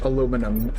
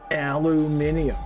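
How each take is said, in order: First: The word ends in a shorter -num syllable. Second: The word ends in an extra -ium syllable. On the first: "as the normies call it" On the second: "We need magnesium and aluminium"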